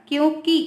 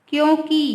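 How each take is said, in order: Both takes have the same delivery.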